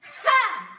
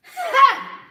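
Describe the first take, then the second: First: High, loud "Ha!" from the throat; throat yell. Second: Very loud "Ha!" driven from deep in the belly; diaphragm yell. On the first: Teacher showing the wrong throat yell, high and loud. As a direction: yell "Ha!" tight from the throat, higher. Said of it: "your angry voice is coming from your throat. It sounds like this". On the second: Teacher showing the right yell from the diaphragm. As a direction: push "Ha!" up from the diaphragm. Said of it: "So you wanna yell from here, from deep in that powerful place". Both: Shown as a demonstration.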